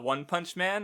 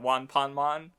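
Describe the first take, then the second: First: It is said with English pronunciation. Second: It is said with Japanese pronunciation.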